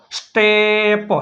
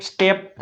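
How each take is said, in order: First: સ્ટેપ with a very long vowel and separate પ; blending sounds. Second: Said in the usual way. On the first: Shown as a demonstration. Teacher explaining એસ ટી as સ્ટ, સ્ટેપ stretched out. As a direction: stretch the middle of સ્ટેપ slowly. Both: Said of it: "એસ ટી એટલે સ્ટ".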